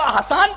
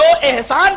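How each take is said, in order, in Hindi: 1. नाम 'ah' स्वर से शुरू होता है। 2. नाम 'eh' स्वर से शुरू होता है।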